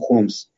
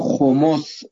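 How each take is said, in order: First: The word has one syllable, without a middle vowel. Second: The word has two syllables, with a middle vowel. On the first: This is the habitual everyday pronunciation. The speaker calls it wrong. "عادت کردیم بر اساس عادت میگیم خُمس" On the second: This is the correct pronunciation as in the verse. The speaker calls it right. "خُمُس سعیشه"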